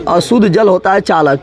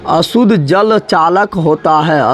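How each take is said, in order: First: Said in the usual way. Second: Very slow, drawn-out teacher's repeat; slow dictation. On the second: Shown as a demonstration. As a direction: spell it out word by word for the class. (धीरे-धीरे, लिखवाने के अंदाज़ में)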